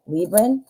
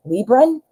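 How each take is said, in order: First: "Libran" said as "LEE-bran" with the r, still rising; second try. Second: "Libran" said as "LEE-bun", rising as a question; unsure pronunciation. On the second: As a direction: try "Libran" as "LEE-bun" with a doubtful rise. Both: Shown as a demonstration. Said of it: "how do you say that?".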